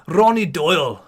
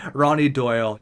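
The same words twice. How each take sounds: First: Slightly louder, poorly faked Scottish accent; bad Scottish accent. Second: Said in the usual way. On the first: Gamer imagining a tough dude, bad Scottish accent. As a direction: put on a hammy Scottish accent. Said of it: "that's not a good Scottish accent". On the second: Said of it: "but you guys know what I mean".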